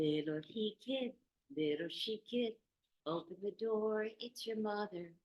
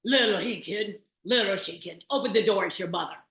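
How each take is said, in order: First: Softer, higher sweetened wolf singing; the wolf finally singing sweetly; sweet practiced voice. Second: Loud, rough wolf singing the mother's song; a wolf's loud singing attempt at a mother's song; good wolf voice. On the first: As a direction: coo the rhyme like a gentle mother. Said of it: "until he got it just right". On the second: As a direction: belt the rhyme out like a wolf faking a mother. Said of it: "he sang out in his good wolf voice". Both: A narrator's reading.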